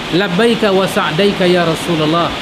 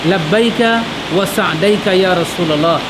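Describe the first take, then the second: Both takes have the same delivery.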